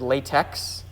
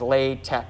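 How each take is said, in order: First: It is said like the ordinary English word latex. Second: It is said unlike the ordinary English word latex. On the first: It names the rubber material. The speaker calls it wrong. "that looks like the English word latex" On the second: It names the typesetting system. The speaker calls it right. "the way most people pronounce it is LaTeX"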